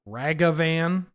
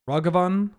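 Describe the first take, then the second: First: The first vowel sounds like 'a' in cat. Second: The first vowel sounds like 'uh'. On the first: The speaker calls it wrong. "not Ragavan" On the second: The speaker calls it right. "and Ragavan"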